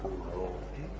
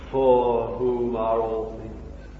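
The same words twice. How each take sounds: First: Much softer and lower, almost to himself; hushed repeat. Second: Each word laid down slowly; slow, deliberate. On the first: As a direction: let it sink in, hushed. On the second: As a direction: spell it out slowly for the hearers. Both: Shown as a demonstration. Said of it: "You see?".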